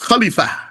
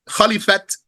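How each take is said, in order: First: The word ends in a vowel, without t. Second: The word ends with a clear t sound.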